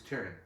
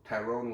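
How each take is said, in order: First: The last syllable has a short 'ron' sound. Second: The last syllable has a long 'rone' sound. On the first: The speaker calls it right. "His name is Tyron" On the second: The speaker calls it wrong. "his name is not Tyrone Woodley"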